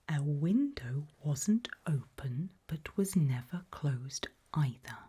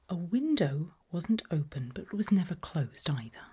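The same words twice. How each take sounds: First: The sentence is said slowly and deliberately. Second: The sentence is said at a normal speed.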